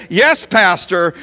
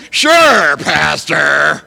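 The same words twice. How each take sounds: First: Said in the usual way. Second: Sarcastic sure. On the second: Pretend. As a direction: sneer it back at the pastor. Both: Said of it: "when in reality you're saying".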